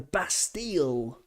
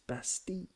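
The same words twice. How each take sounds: First: The double L is sounded as an L. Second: The double L is sounded as a Y. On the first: The speaker calls it wrong. "doesn't exist in French" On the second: The speaker calls it right. "Same kind of thing, double L. Pronounce it like a Y"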